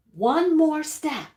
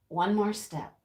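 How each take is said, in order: First: ONE MORE STEP drawn out, higher and louder; dramatic emphasis. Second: Said in the usual way. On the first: Real, not acted. Storyteller builds up to the rooster's attack, "one more step" emphatic. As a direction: hit "one more step" slowly and forcefully.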